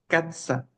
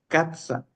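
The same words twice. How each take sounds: The two takes are said the same way.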